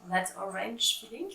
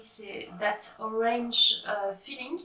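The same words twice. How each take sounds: First: That Orange Feeling with a playful English accent; self-mocking English accent. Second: Said in the usual way. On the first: Shown as a demonstration. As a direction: put on a jokey English accent for the yarn name. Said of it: "Alors, avec le super accent". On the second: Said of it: "avec le super accent".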